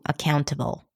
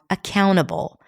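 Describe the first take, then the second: First: The T sound is clearly pronounced. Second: The T sound is dropped.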